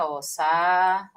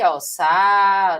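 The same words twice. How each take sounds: First: "sa" drawn out slowly as its own syllable; slow syllable demo. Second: Said in the usual way. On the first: Shown as a demonstration. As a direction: stretch "sa" to show the split. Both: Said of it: "vamos fazer a separaçãozinha".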